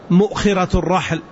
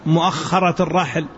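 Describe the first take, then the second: First: "مؤخرة" as mu'-khira, single kha; hamza sakina. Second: "مؤخرة" as mu-'akh-khara, doubled kha; fatha on hamza. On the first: Teacher reviewing the forms with students, "مؤخرة" pronounced mu'-khira. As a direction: stop on the hamza, then khi in "مؤخرة". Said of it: "وبعد همزة ساكنة". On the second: Teacher reviewing the second form, "مؤخرة" pronounced mu-'akh-khara. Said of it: "بفتح الهمزة". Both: Shown as a demonstration.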